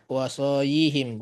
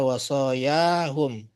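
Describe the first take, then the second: First: The word ends with -yihim, vowels i and i. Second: The word ends with -yahum, vowels a and u. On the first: The speaker calls it wrong. "Bukan wasoya wasoyihim, bukan ya" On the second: The speaker calls it right. "Sehingga tetap dibaca wasoyahum"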